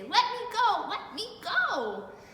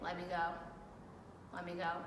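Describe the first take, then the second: First: It is said loudly, like an exclamation. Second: It is said calmly, without exclamation.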